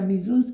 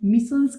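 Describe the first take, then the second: First: The middle consonant is a buzzing z sound. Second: The middle consonant is a hissing s sound. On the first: "या मिजन्स कह लें, एक ही बात है" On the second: "मिसन्स कह लें"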